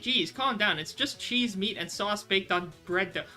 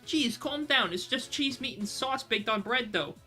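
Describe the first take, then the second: First: It is read in the reader's plain voice. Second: It is read in Darcy's put-on accent.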